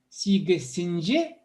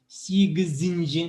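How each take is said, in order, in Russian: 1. Средний согласный — глухой s. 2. Средний согласный — звонкий z.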